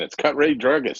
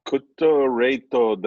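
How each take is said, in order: First: It is said plainly, like an ordinary phrase. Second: It is said carefully, like a foreign word.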